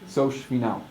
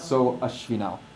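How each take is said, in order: First: The a vowel is dropped, joining the words. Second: The a vowel is pronounced between the words. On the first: The speaker calls it right. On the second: The speaker calls it wrong.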